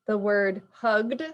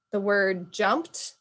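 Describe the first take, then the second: First: "hugged" diucapkan dengan akhiran D bersuara; hugged with D ending. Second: "jumped" said slowly ending in a crisp T. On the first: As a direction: say "hugged" with a voiced D at the end. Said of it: "ends with a D". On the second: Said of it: "ends with a T". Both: Shown as a demonstration.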